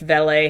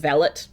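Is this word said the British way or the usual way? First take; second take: usual; British. First: The word is said in the usual pronunciation. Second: The word is said in the British pronunciation. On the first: "I do know that valet is usually pronounced valet" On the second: "in the U K, they do pronounce it valet"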